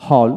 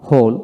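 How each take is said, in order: First: হল as a lone word, open "aw" vowel; American হল for learners to copy; American pronunciation drill. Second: হোল as a lone word, rounded "oh"; British হোল for learners to copy; British pronunciation drill. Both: Shown as a demonstration. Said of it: "এইভাবে দুইটা উচ্চারণে পড়াবেন".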